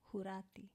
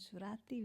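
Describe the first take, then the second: First: The word begins with an h sound. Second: The word begins with an s sound. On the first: This is how the speaker's own community says the name. "We say Hurati" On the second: This is how others say the name. "we don't say Surat as in Surati"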